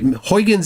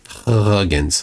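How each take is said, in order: First: The first syllable sounds like 'hoy'. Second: The first syllable sounds like 'hug'. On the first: The speaker calls it wrong. "Huygens is a mispronunciation" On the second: The speaker calls it right. "It's closer to Huggins"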